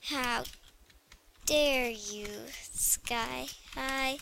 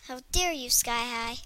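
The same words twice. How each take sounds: First: Half-whispered mock offence; mock offended, muttered. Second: Mock offended, aloud. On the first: Girl scolding the game under her breath, whispered. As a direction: mutter it to yourself, fading to a whisper. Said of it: "I need to say it actually to the Sky High". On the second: Girl telling off the Sky High game, mock indignant. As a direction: scold the game directly, half-joking. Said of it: "say it actually to the Sky High".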